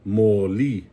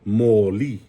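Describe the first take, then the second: Both takes have the same delivery.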